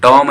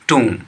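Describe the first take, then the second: First: The vowel is short, like in 'tom'. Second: The vowel is long, like in 'too'. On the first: The speaker calls it wrong. "टॉम नहीं पढ़ रहा है" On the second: The speaker calls it right. "इसमें बी silent है"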